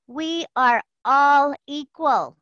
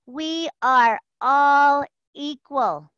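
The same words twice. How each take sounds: First: Slow, deliberate chant of the creed; slow mantra. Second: Chanted, even slower unison mantra; chanted, draw each word out for them to echo; slow group chant. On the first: Leading the call in a slow unison mantra. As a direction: lead the group, spacing each word. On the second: Leading the call through the repeat, slow chant. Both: Shown as a demonstration. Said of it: "Say it with me".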